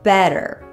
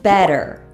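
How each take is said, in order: Both takes have the same delivery.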